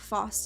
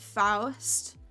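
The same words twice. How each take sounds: First: The name is said with a softer sound. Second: The name is said with a harder sound. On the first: "I think Faust is softer" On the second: "Some people pronounce it"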